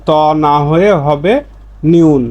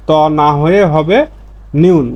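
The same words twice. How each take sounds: The two takes are said the same way.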